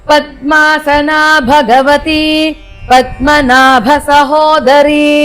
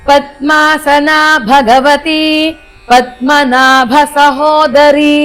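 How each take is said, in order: No difference in how they are said.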